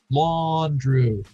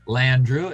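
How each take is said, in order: First: The first syllable sounds like 'lawn'. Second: The first syllable sounds like 'land'. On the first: "We've got L A W N Drew" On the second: "L A N D?"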